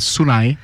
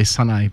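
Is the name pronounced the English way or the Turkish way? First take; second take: Turkish; English. First: The name is said with Turkish pronunciation. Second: The name is said with an English pronunciation. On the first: "the correct Turkish pronunciation is Sunay" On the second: "I just say Sunay because we're in Australia"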